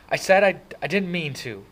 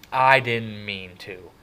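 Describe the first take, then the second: First: High, loud, upset insistence; frustrated protest. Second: Loud, slow, drawn-out angry echo; mocking shout. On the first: Kid near tears protesting to brother, frustrated. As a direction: protest as frustration boils over. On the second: Brother throwing kid's excuse back, slow angry shout. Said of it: "Derry shouted". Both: A narrator's reading.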